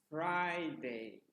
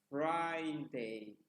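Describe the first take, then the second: No difference in how they are said.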